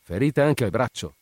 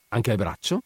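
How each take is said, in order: First: Higher exclamation falling at the end; exclaimed. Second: BRACCIO lifted in a rising question; questioning rise. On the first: Brigadiere hearing of a second wound, exclaiming. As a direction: exclaim it as a discovery. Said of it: "esclamò il brigadiere". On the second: Doctor finding another wound on the patient, questioning. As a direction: ask it, voice climbing on BRACCIO. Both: A narrator's reading.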